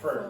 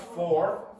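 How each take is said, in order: First: The word is said in a weak, reduced form. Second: The word is said in its full, strong form. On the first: "how did I say that word?" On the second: "not for"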